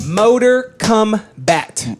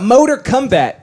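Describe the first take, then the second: First: MOTOR KOMBAT drawn out very slowly, word by word; slow, deliberate repeat. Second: Said in the usual way. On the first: Pretend. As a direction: stretch out "Motor Kombat" for effect. Repeats title slowly for effect.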